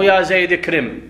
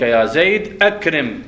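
First: اكرم run in as ya zed krim; the mistaken joined reading; joined hamza, wrong. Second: Slowly, أكرم with a clear hamza, akrim; the correct cut reading. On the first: Teacher giving students the wrong joined reading. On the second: Teacher giving students the right cut reading. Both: Shown as a demonstration. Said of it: "مو".

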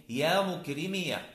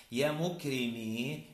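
First: "مكرمية" said mukrimiya, ending in short a; ya with fatha. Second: "مكرمي" ending in a long ee; careful "مكرمي" with no vowel after the ya; silent final ya. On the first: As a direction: open "مكرمية" into a final -ya. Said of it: "إثبات الياء مع الفتح". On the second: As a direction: slowly say "مكرمي" as muk-ri-MEE. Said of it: "وإثباتها مع السكون". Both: Shown as a demonstration.

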